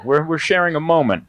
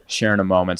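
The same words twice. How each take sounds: First: Said in the usual way. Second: Hippy-dippy sincere. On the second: Shown as a demonstration. Comedian to the audience, lowering into a sincere hippy-dippy repeat. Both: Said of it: "Sorry if I'm being too hippy-dippy".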